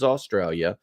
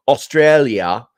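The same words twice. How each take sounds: First: Said in the usual way. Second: Drawn-out, louder stab at an Australian accent; amateur mock-Australian accent; attempted Australian accent. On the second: Shown as a demonstration. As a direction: have a clumsy go at sounding Australian. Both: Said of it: "I can't do an Australian accent".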